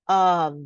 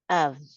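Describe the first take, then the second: First: The word is said with a full vowel. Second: The word is said with a short reduced vowel. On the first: "The strong pronunciation of this word is of" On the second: "And the weak one, like when we are speaking quickly in the middle of the text"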